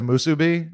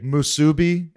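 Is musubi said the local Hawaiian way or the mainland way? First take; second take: local Hawaiian; mainland. First: It is pronounced the local Hawaiian way. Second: It is pronounced the mainland way. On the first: The speaker is a local from the islands. The speaker calls it right. "instead of musubi" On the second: The speaker is an outsider to the islands. The speaker calls it wrong. "when I hear people say musubi instead of"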